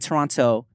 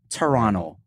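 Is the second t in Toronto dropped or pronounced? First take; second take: pronounced; dropped. First: The second t sound is clearly pronounced. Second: The second t sound is dropped. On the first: The speaker is not from the city. The speaker calls it wrong. "you don't say Toronto" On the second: The speaker sounds like a local. The speaker calls it right. "not to pronounce the second T"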